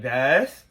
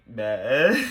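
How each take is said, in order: First: Said in the usual way. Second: Low, tearful mock whine; mock whimper. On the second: Appealing to best friend after his reply, mock crying. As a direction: say the name as if starting to cry. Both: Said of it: "That's what I'm doing".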